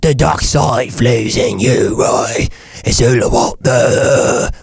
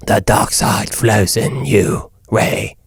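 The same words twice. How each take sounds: First: Slow, drawn-out British villain; menacing dark lord in a British accent; Darth Sidious. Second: Slow, low villain line without British accent; a lame, slow dark-lord impression; Darth Sidious. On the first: Evil lord tempting his pupil, slow British villain voice. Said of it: "if you put a British accent". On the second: Host showing the villain minus his accent, slow low voice. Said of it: "not a British accent". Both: Shown as a demonstration.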